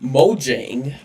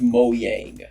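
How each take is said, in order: First: It is said the common English way. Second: It is said the Swedish way. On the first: "as most of us call it" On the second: "is actually technically pronounced"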